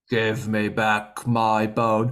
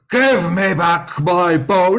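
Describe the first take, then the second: First: It is said more quietly. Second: It is said more loudly.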